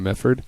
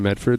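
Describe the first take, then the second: First: The D in Medford is left silent. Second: The D in Medford is clearly pronounced. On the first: This is how locals say it. "They say, ... Silent D" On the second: This is not how locals say it. "people from Medford don't say"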